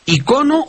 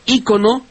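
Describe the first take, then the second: First: "Icono" as i-CO-no; stress on CO. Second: "ícono" as Í-co-no; stress on first I. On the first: Host asks the maestro about variants, "Icono" stressed on CO. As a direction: hit the middle syllable of "Icono". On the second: Host offers the maestro the other form, "ícono" stressed on Í. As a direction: hit the opening í of "ícono". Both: Shown as a demonstration. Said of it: "¿cómo se dice?".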